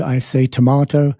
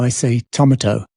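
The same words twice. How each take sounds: First: Tomato said to-MAH-to, British way. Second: Tomato said TAH-ma-toe, stress on first syllable; "tomato" as TAH-ma-toe, stressed up front; made-up tomato. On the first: Quoting his own British way of saying it, to-MAH-to. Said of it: "my funny one is". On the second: His invented restaurant dialect, TAH-ma-toe. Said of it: "I'm making up my own dialect". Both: Shown as a demonstration.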